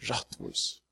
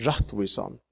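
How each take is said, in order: First: Rattvis breathed out as an unvoiced whisper, much softer; whispered echo. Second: Said in the usual way. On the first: Shown as a demonstration. Preacher to congregation, repeating rattvis as a whisper. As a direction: let the word rattvis fall to a hushed whisper.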